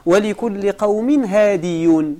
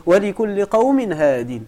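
First: ولكل قوم هادي, drawn out with the final ياء sounded; slow, spell out the ي in هادي; original form with final ي. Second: ولكل قوم هاد, ending clipped to هاد without the ياء; slow, drop the ي from هاد; shortened form. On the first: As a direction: recite it the old way, هادي with its ياء. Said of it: "الأصل". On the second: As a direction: recite the final form, هاد cut short. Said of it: "فبقي". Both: Shown as a demonstration.

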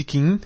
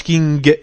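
First: KING ending on a nasal ng, no g popped; king without hard g. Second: KING with a hard g released at the end. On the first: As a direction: say "king" with the g melted into the nose. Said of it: "قلت king". (king بغنة من غير نطق الجيم) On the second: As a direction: say "king" wrongly, popping the final g. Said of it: "ما قلتش king". (king بنطق الجيم في آخرها) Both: Shown as a demonstration.

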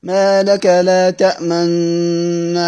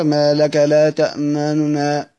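First: ما لك لا تأمن chanted slowly, lips rounded on the nun of تأمن; slow recitation rounding the lips during the doubled nun; with ishmam. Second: ما لك لا تأمننا recited slowly with the first nun's vowel snatched short; slow recitation, briefly snatching the vowel on تأمننا; quick vowel snatch demo; with ikhtilas. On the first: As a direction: Quranic ishmam demo. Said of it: "يسمى الإشمام". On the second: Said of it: "اختلاس". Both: Shown as a demonstration.

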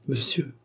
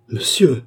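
First: Soft, higher pleading plea; softer pleading "Monsieur". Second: Loud, higher outraged cry; "Monsieur!" cried out loud and high; indignant cry. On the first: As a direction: beg him softly, higher. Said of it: "supplia-t-elle". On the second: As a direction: hurl it at him in outrage. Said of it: "s'écria Cerise, suffoquée d'indignation". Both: A narrator's reading.

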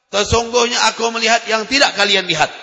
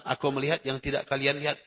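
First: Translation declaimed higher and louder; forceful translation. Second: Same line softer and lower, almost confiding; quiet retelling. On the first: Preacher proclaims the Prophet's words to listeners, forceful. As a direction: proclaim it to the whole hall. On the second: Preacher repeats the Prophet's words softly to listeners, confiding. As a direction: drop the voice and let it sink in. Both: Shown as a demonstration. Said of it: "Rasulullah menyatakan".

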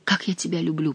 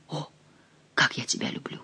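First: Soft, loving whisper. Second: Very soft, low whisper; loving whisper. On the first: A narrator's reading. Bussy answering his beloved's declaration of love, soft whisper. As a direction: whisper the love back to her. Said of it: "прошептал Бюсси". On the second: Acted. Diana declaring love to her beloved at night, loving whisper. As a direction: whisper it as an intimate confession.

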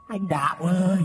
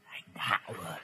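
First: Higher ghostly call. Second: Faint, low ghost whisper from outside; ghostly whisper. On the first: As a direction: call him again, more insistent. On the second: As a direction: breathe his name like a ghost. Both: Acted. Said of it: "có tiếng thì thào".

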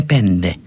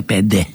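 First: «πέντε» με ν που ακούγεται πριν από το d; πρόφερε ολόκληρο το ντ στο «πέντε»; με καθαρό νι. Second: «πέντε» σαν «πέdε», χωρίς ν; φάε το ν στο «πέντε». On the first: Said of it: "Αλλιώς εξαφανίζουμε το νι". («πέντε» με έρρινο ντ) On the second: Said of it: "Δεν λέμε πέντε". («πέντε» με σκέτο d) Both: Shown as a demonstration.

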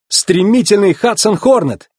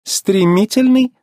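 First: СТРЕМИТЕЛЬНЫЙ said high and proud; high, emphatic billing of a legend; excited proclamation. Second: High, slow, sceptical question; drawn-out doubting question, rising; doubtful. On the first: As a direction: announce the racer's title eagerly. Proudly naming the racing legend. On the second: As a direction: echo it slowly in disbelief. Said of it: "усомнилась Фло". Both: A narrator's reading.

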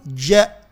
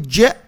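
First: جاء with a firm "dj" onset; hard, sealed j at the start of جاء; correct closed jim. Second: جاء with a loose, leaking "zh" onset; wrong soft jim. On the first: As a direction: stop the air before releasing جاء. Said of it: "لا، ولكن نقول". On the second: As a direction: say جاء without closing off the consonant. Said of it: "مش نقول". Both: Shown as a demonstration.

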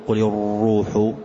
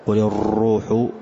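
First: "قل الروح" with the ر rolled over and over; "قل الروح" مع تكرار الراء، نطق خاطئ; wrong, rolled r. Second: "قل الروح" with a single clean ر; "قل الروح" with the ر not repeated; correct, no trill. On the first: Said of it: "ما تقول". ("قل الروح" بتكرار الراء المبالغ فيه) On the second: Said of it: "نقول". ("قل الروح" بلا تكرار للراء) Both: Shown as a demonstration.

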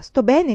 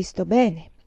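First: Loud, higher shout, rising on bene; shouting into the phone. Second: Steady, falling reassurance on bene; smiling reassurance. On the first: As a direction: call it out down a bad line, stressing bene. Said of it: "urlò ancora". (urlato al telefono, bene in salita) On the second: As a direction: smile through it to calm him. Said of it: "sorrise in un gesto di gratitudine". (rassicurante, con un sorriso, bene in discesa) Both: A narrator's reading.

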